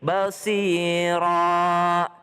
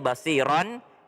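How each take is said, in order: First: The word ends with a long vowel. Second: The word ends with an n sound. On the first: This is the form used when stopping at the end. "Kalau kita berhenti menjadi basira" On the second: This is the form as written, read without stopping. "itu tulisannya basiron"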